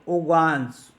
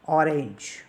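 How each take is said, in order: First: It is said with French pronunciation. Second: It is said with English pronunciation.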